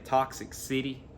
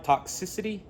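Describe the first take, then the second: First: It is said as two words. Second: It is said as one word. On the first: The speaker calls it wrong. "At one time, I was saying Toxic City" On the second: The speaker calls it right. "I think I finally got it down"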